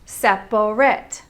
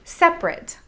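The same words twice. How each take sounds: First: It is said with three full syllables. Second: It is said with only two syllables. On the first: "the proper three syllables" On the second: "Instead, we say separate"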